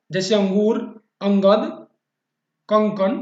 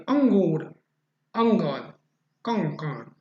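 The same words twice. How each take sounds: First: अंगूर, अंगद, कंकन said loud with the nasal ङ sound clear; louder demo of nasal sounds. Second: Said in the usual way. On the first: Shown as a demonstration. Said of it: "जिसकी ध्वनि नाक से निकलती है". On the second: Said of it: "इसकी ध्वनि नाक से निकलती है".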